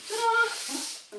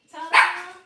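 First: High, loud sing-song ta-da. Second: Big, very loud ta-da. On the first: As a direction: trill it like a showgirl. Second entrance flourish. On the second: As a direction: announce the big entrance. Grand entrance back. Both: Real, not acted.

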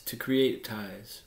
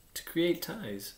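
First: Slow, measured explanation; slowly given definition in the usual pitch; explaining. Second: "To create ties?" high and slow, as a question; "To create ties?" drawn out high, querying; puzzled echo. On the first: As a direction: spell out the meaning without hurry. Fox explains what tamed means. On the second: Prince echoes it as a question. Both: A narrator's reading.

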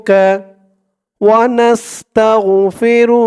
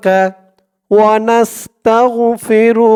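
The two takes are said the same way.

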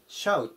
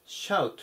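First: ショーと読まないshout; model pronunciation. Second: Shout, short vowel, falling; 正しい発音のshout; model pronunciation. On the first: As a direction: shout starting シャ, not ショー. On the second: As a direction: repeat shout with シャ start. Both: Shown as a demonstration. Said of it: "まず発音に注意ですね".

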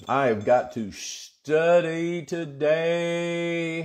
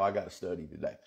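First: Slow, elongated declaration of urgency; drawn-out emphasis. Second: Said in the usual way. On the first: Real, not acted. Pastor telling congregation he must study, drawn-out emphasis. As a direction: stretch the words out slowly, holding the vowels.

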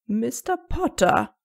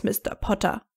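First: Langsam und gedehnt, mahnender Ton; warnend. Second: Said in the usual way. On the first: A narrator's reading. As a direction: eine ernste Warnung aussprechen. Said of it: "warnte McGonagalls Ton". (McGonagall ermahnt Harry mit warnendem Ton) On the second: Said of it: "stechenden Blick".

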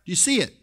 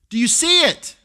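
First: Said in the usual way. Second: Higher and louder, pressing the crowd; loud rising challenge. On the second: Shown as a demonstration. Preacher challenging the congregation, higher and louder. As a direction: push the question up and out.

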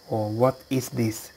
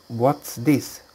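First: "what is this" said as full form with what stressed. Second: Said in the usual way. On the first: Shown as a demonstration. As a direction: spell out "what is this" instead of "What's". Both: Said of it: "useful questions".

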